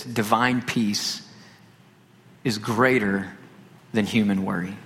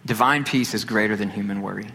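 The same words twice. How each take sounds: First: "divine peace / is greater / than human worry" in slow, separated phrases; deliberate pauses. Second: Said in the usual way. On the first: Real, not acted. Preacher stating the key point, "divine peace is greater than human worry" broken by pauses.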